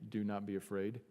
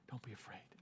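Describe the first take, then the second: First: It sounds like a stern, formal command. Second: It sounds gentle and reassuring.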